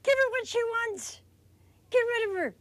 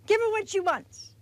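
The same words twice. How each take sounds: First: Impatient pleading. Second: Higher, pushy plea to be rid of her; impatient pleading. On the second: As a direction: urge him, fed up and impatient. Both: Acted. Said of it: "the disciples pleaded with him".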